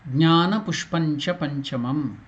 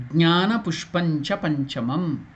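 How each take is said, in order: No difference in how they are said.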